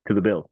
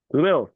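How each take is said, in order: First: Said in the usual way. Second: "To the Bills." repeated louder and higher; incredulous emphatic echo. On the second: Shown as a demonstration. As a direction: hit "Bills" hard on the repeat.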